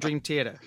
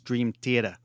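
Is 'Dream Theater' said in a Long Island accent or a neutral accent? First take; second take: neutral; Long Island. First: It is said in a neutral accent. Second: It is said in a Long Island accent.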